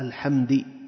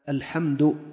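First: The last consonant carries an i vowel. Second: The last consonant carries a u vowel. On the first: The speaker calls it wrong. "كسرها، نقول هذا ماذا؟ لحن" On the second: The speaker calls it right. "الواجب أن يضم الدال"

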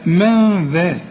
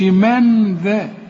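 First: The n is hidden without the tongue touching. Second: The n is articulated clearly with the tongue. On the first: The speaker calls it right. "لا من ذا" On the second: The speaker calls it wrong. "اوعى تستعمل لسانك هنا في النون، ما تقولش من ذا"

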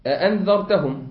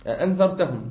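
Both takes have the same delivery.

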